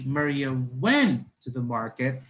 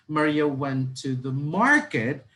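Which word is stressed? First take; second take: went; market. First: The stress is on went. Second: The stress is on market.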